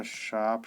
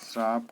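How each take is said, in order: First: शाप without any "r"; correct form. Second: श्राप with an "r" after the first sound; wrong form. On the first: Teacher gives the right form, शाप without "r". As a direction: say शाप as simple "shaap". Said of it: "शुद्ध होता है". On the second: Teacher voices the error, "r" inside श्राप. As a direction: say श्राप as "shraap". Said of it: "का शाप शुद्ध होता है". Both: Shown as a demonstration.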